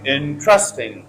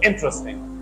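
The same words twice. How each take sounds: First: The stress is on the second syllable. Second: The stress is on the first syllable. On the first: The speaker calls it wrong. "If you put stress on second syllable" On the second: The speaker calls it right. "the correct stress is first syllable"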